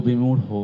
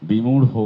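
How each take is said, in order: No difference in how they are said.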